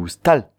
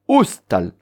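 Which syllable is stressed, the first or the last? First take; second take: last; first. First: The stress is on the last syllable. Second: The stress is on the first syllable. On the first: The speaker calls it right. "on dit oustal" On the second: The speaker calls it wrong. "on dit pas oustal"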